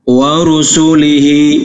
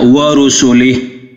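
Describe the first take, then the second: First: The word ends with a final -i vowel. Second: The word ends on a bare h sound.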